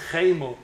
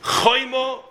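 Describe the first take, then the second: First: "Chemo" with ay in the first syllable; Vav taken out. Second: "Choimo" with a drawn-out oy; with a Vav. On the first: Teaching the word for anger, "Chemo" with ay. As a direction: say "Chemo" as khay-mo. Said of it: "You take out the Vav". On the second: Teaching the word for wall, "Choimo" with oy. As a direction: say "Choimo" slowly, first syllable khoy. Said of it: "with a Vav". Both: Shown as a demonstration.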